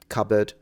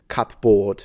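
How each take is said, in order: First: The second vowel is reduced and weak. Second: The second vowel is full and clear. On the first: The speaker calls it right. "the reduced vowels such as" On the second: The speaker calls it wrong. "rather than"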